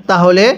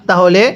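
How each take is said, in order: The two takes are said the same way.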